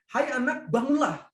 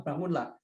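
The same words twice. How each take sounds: First: Raised, higher call to wake her; firm command. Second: Quiet, lower, tender bangunlah; soft gentle command. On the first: Jesus calls out to the dead girl to rise, a raised firm command. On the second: The preacher echoes Jesus waking the girl, soft and tender. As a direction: say it softly, like waking a child. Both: Acted.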